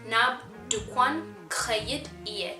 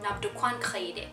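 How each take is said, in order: First: The last two words are pronounced separately. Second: The last two words merge into one. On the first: This is the careful written form. The speaker calls it wrong. "khayid iye is more like the book from writing to spoken word pronunciation version" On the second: This is the everyday spoken form. The speaker calls it right. "sped up and in a more natural tone of a conversation, it would be khayide"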